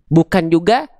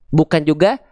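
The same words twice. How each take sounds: Both takes have the same delivery.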